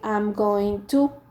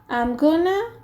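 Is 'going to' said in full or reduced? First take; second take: full; reduced. First: It is said in full as 'going to'. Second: It is reduced to 'gonna'. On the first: "They don't say I'm going to" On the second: "maybe you hear the people saying"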